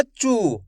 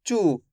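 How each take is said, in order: First: चू with the u drawn out long; stretched u, wrong. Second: चू with a short, quick u vowel; short u, correct. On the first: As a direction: drag the vowel of चू into a long uu. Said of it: "अगर आप खींच के पढ़ दोगे". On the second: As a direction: say चू with the u kept brief, not drawn out. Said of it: "ऐसे नहीं पढ़ना". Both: Shown as a demonstration.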